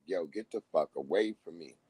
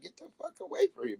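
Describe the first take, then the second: First: Much lower, dropped mock baby warning. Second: Much higher, fast squealing mock baby; panicked baby voice. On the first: Baby warns off a stranger, low and soft. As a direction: growl it low like a wary infant. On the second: Baby shoos a man in a wig, high and fast. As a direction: shriek it quickly like a scared infant.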